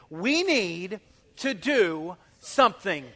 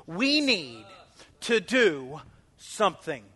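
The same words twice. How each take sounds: First: We need to do something slow and weighty, stress on we; emphatic. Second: We need to do something with stress on we; emphatic. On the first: Pastor modelling the words for the church to say, emphatic. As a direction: say it slowly and emphatically. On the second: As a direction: hit we, slow the rest. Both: Shown as a demonstration. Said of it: "say those words emphatically".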